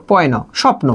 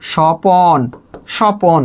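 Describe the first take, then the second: First: স্বপ্ন with the p and n joined, no vowel between them; consonant cluster. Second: স্বপন with an o sound between p and n; inserted middle vowel. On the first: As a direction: say স্বপ্ন tight, pn together. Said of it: "স্বপ্ন থেকে আপনি বললেন হচ্ছে স্বপন". (স্বপ্ন যুক্তবর্ণে উচ্চারণ) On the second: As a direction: break স্বপন open as "sho-pon". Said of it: "দেখেন স্বপ্ন থেকে স্বপন". (স্বপন মাঝে অ যোগ করে) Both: Shown as a demonstration.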